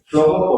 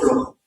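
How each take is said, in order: First: The j sound is soft and relaxed. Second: The j sound is harsh and fully pronounced. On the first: This is the supposed relaxed local pronunciation. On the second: This is the standard central pronunciation.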